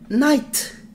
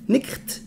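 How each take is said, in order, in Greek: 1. Το gh είναι άφωνο και το φωνήεν ακούγεται 'ai'. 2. Το gh ακούγεται σαν τραχύ 'ch', φωνήεν 'i'. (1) "Οι Άγγλοι night" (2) "αν το διαβάσετε, όχι αν το προφέρετε, είναι νίχτ"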